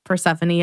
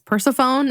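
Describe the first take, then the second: First: The name has its usual pronunciation. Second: The name is said in a misread way. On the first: The speaker calls it right. "I always pronounced Persephone" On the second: The speaker calls it wrong. "as Persephone"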